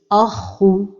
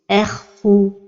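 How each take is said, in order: First: The opening hamza is made heavy too. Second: The kha is said thin, not heavy. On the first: "il ne faut pas emphatiser al-hamza comme ceci" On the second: "il ne faut pas amincir la lettre kha qui porte soukoun, comme ceci"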